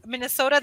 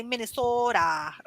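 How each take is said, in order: First: Said in the usual way. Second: Minnesota accent. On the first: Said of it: "it's for Minnesota". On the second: Shown as a demonstration. Teacher showing how Minnesotans say their state, Minnesota accent. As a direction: imitate a Minnesotan, stretching the o in Minnesota. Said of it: "they say Minnesota".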